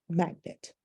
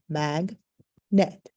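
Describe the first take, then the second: First: Said in the usual way. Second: "mag, net" as two beats with a clear pause; split into syllables. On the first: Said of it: "What's the word?". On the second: Shown as a demonstration. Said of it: "My syllables are".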